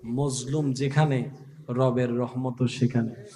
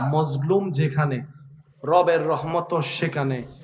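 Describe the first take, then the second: First: It is said at normal, softer volume. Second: It is said louder, with more force.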